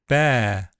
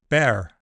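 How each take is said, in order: First: The word ends in a single plain vowel. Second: The word ends with an audible R sound. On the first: "my centering diphthongs have smoothed to monophthongs" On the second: "You can still hear the R in many accents, including American"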